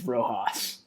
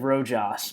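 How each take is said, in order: First: The middle consonant is an H sound. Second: The middle consonant is a hard J sound. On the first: The speaker calls it right. "but it's" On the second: The speaker calls it wrong. "I said"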